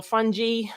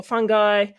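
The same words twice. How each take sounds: First: "fungi" said as FUN-jee; soft-g pronunciation. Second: "fungi" said as FUN-guy; hard-g pronunciation. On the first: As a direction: say "fungi" with a j sound, ending in "ee". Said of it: "Some people say fungi". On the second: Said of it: "or however you wanna pronounce it". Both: Shown as a demonstration.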